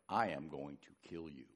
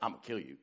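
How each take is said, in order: First: It is said in a slow, menacing way. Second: It is said in a casual, offhand way.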